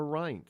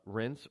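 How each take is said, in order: First: Reince with a long i, like "rhynce"; chosen pronunciation. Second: Reince with a short e, like "rence"; alternative pronunciation. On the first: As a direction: say Reince with the vowel of "pint". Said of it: "by pronouncing it, uh, Reince". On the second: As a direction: say Reince to rhyme with "fence". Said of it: "if it's, uh, Reince or Reince". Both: Shown as a demonstration.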